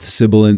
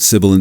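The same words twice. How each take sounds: First: The sound is darker, with less high treble. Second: The sound is bright, with boosted high treble. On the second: "and on. ... With the high frequency shelf on, it becomes an incredibly bright"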